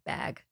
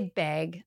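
First: The vowel matches the vowel of bad. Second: The vowel has a Canadian quality. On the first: "before I say the word, say bad. Bad bag. And that helps" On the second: "I say bag. I'm Canadian"

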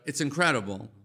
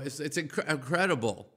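First: The voice flows smoothly through the whole word. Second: The voice catches briefly in the first syllable. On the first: The speaker calls it right. "instead of it's incredible" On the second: The speaker calls it wrong. "If I just have a little slight catch in my throat in the middle of one word"

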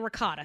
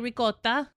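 First: It is said with a general American pronunciation. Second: It is said with an Italian pronunciation. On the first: This is how other people say it. "other people say ricotta" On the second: This is how Italians say it. "Italians will say ricotta"

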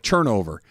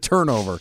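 First: The word begins with a 'ch'-like sound. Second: The word begins with a plain 't' sound. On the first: "that had a little CH at the beginning, like turnover" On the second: "as opposed to turnover"

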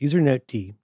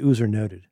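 First: The final d is said as a separate letter. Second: The final d is joined into the word. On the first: The speaker calls it right. "You pronounce the D as D because it's a daemon" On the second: The speaker calls it wrong. "I don't say usernoted"

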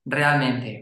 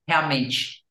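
First: It is said with a Mexican accent. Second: It is said with a Brazilian Portuguese accent. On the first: "Mexicans would say realmente" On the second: "how does that sound in Brazilian Portuguese? It's realmente"

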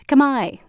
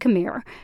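First: The word ends in an 'eye' sound. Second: The word ends with an R sound. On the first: The speaker calls it right. "It's actually pronounced Khmai" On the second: The speaker calls it wrong. "Most Americans are used to hearing it said Khmer because it's spelled with an R"

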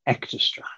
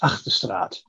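First: The name has an English-sounding pronunciation. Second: The name has a Dutch-sounding pronunciation. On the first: This is the form adopted after learning English. "But when I learned English at 4 years of age, it sort of changed to" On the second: This is how the family said it originally. "When I grew up, couldn't speak English at the age of four, and we pronounced it as"

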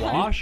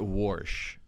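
First: The word is said without an r sound. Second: The word is said with an r sound. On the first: The speaker calls it right. "It's wash, 1,000%" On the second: The speaker calls it wrong. "If you put an R in wash"

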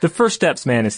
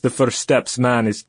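First: It is spoken in the speaker's normal accent. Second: It is spoken with a put-on Russian accent. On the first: "just continue in a normal voice" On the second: "in his best Russian accent"

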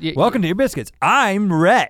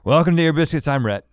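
First: The greeting is said brightly, with more energy. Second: The greeting is said flatly, with low energy. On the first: "Does that sound more excited?" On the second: "That's how it came out"

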